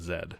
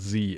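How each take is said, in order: First: The letter is pronounced zed. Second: The letter is pronounced zee. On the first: The speaker calls it wrong. "not Z ... looking at you, Canada" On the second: The speaker calls it right. "it's called Z"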